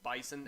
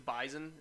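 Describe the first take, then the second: First: It is said with the common general pronunciation. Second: It is said with the local Fargo pronunciation. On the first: This is how people say it everywhere else. "instead of bison everywhere else" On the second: This is how people in one region say it. "in Fargo where you go and you know you say it's bison"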